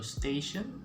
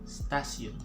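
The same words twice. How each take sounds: First: The middle consonant is a sh sound. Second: The middle consonant is an s sound. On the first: "it got that sh sound" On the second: "we're just gonna use the S sound"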